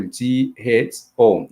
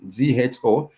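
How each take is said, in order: First: G H O spelled out slowly, letter by letter; teacher spelling G H O slowly; slow spelled demo. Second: Said in the usual way. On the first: Shown as a demonstration. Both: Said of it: "For example".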